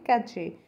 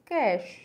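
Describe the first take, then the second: First: The word ends with a 'chay' sound. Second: The word ends with an 'sh' sound. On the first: The speaker calls it wrong. "हम इसे normally बोलते हैं कैचे, but it's not कैचे" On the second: The speaker calls it right. "It's कैश"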